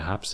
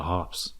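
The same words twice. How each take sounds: First: Said in the usual way. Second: "harps" as "hahps", open ah and no r; mock Tasmanian vowel. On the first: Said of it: "I don't say what the haps is". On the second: Shown as a demonstration. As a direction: say "harps" with a broad ah, r left silent. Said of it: "I just say what the harps is".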